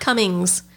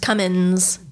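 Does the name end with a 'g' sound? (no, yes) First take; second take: yes; no. First: The name ends with a 'g' sound. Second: The name ends without a 'g' sound. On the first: The speaker calls it wrong. "It's not Cummings" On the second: The speaker calls it right. "It's just Cummins. There's no G"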